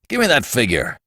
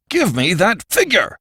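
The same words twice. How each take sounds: First: Restrained but firm order; curt demand. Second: High-pitched, forceful outburst; angry demand. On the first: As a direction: demand it without raising your voice much. Brewster first demands the figure. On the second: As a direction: burst out with an impatient order. Repeated demand makes Archie start violently. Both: A narrator's reading.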